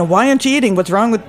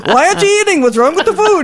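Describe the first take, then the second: First: Lightly voiced Jewish mother nagging; mild Jewish accent pushing food on a guest. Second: High, loud Italian mama voice; a bad Italian accent, much higher and louder; Italian host pushing food, hammed-up; Italian accent attempt. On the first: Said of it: "that's a Jewish accent". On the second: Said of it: "I can't do an Italian".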